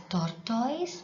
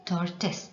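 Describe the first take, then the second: First: "tortoise" said as TOR-toys; common mispronunciation. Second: "tortoise" said as TOR-tuhs; taught pronunciation. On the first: Teacher shows pupils the common mistake, "tortoise" as TOR-toys. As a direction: end "tortoise" with a full "toys" sound. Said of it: "Many tend to pronounce it as". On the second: Teacher corrects pupils' pronunciation, "tortoise" as TOR-tuhs. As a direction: end "tortoise" on a short "tuhs", not "toys". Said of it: "You have to pronounce it as". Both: Shown as a demonstration.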